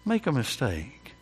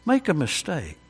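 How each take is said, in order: First: "Make a mistake" said again much softer, letting it sink in; soft repeat. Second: Said in the usual way. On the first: Shown as a demonstration. Preacher echoing his warning to the congregation, softly. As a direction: drop the voice on the echo. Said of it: "repeated softer". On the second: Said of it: "repeated for effect".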